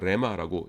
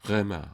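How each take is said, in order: First: The word starts with a plain r sound. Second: The word starts with a throaty, breathy r. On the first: "그냥 우리는 그냥 우리끼리인데 뭐 그러고서 그냥 레마라고 얘기하는데" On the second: "원래는 이 요 감기식이기 때문에 레마 뭐 이런 식으로 해줘야 됩니다"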